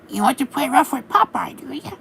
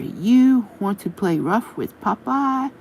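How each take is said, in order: First: It is said in an imitation of Popeye's voice. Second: It is read in a plain narrating voice.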